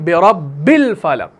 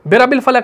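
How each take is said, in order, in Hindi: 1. 'b' की आवाज़ रोकी हुई और दोहरी है। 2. 'b' की आवाज़ छोटी और एकल है। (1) "बल्कि बिरब्बिल फलक" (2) "बिरब्बिल फलक नहीं है"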